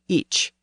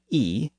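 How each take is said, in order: First: The word ends with a ch sound. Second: The word is a bare vowel without ch. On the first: This is the southern form of the pronoun. "Southerners said ich" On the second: This is the northern form of the pronoun. "Northerners said e"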